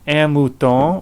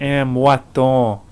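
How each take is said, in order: First: The first vowel sounds like 'oo'. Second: The first vowel sounds like 'wa'. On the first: "you can say either un un mouton" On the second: "So that ou can become a moi, ou to wa"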